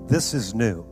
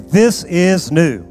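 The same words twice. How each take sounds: First: It is said in a plain, ordinary voice. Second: It is said in a loud, raised voice. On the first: "Say this with me" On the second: "Now say it with some volume today"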